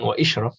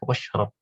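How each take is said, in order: First: A separate 'i' vowel is said after 'wa'. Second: 'Wa' runs straight into 'shrab' with no vowel. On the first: The speaker calls it wrong. "bukan wa ishrab" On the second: The speaker calls it right. "langsung aja washrab"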